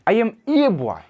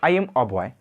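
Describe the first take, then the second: First: The article is a full stressed 'ay' sound. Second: The article is a short weak 'uh' sound.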